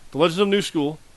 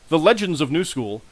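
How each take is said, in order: First: The phrase is mumbled and indistinct. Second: The phrase is articulated clearly and distinctly. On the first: The speaker calls it wrong. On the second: The speaker calls it right.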